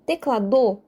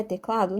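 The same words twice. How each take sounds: First: "Teclado" as teclaDÔ, stress shifted to the end; stress on the last syllable. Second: Said in the usual way. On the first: Shown as a demonstration. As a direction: hit the final DO of "Teclado". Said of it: "enfatizando a sílaba do". ("Teclado" com a sílaba DO tônica: teclaDÔ) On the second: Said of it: "Não".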